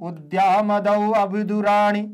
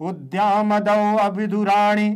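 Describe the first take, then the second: Both takes have the same delivery.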